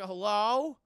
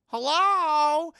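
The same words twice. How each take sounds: First: Louder, questioning call into an empty place; acted calling out. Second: Long, high, shouted hello; acted loud calling out. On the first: Johnny looking around for anybody, tentative calling out. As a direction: call to see if anyone is there. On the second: Johnny looking around for anybody, loud drawn-out holler. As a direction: holler into the distance for anyone. Johnny calls again, much louder.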